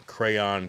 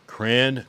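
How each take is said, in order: First: "crayon" in two full syllables, cray-on. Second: "Crayon" squeezed into one syllable, like cran. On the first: Streamer listing ways to say crayon, two syllables. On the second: Streamer listing ways to say crayon, one syllable. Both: Shown as a demonstration. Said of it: "the three main on crayon is crayon".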